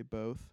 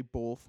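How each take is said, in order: First: BOTH with a clean long oh and no L; both without L. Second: BOTH said with an L before the th. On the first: Comparing two habits for friends, BOTH without any L. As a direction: say both to rhyme with oath. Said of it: "more than I say both". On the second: Admitting own habit to friends, BOTH with an added L. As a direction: say both as bolth. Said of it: "I probably say both more than". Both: Shown as a demonstration.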